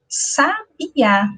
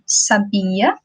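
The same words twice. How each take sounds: First: The stress is on the first syllable. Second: The stress is on the second syllable. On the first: "nessa última ele possui o acento agudo na letra A" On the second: "aqui eu tenho escrito sabia"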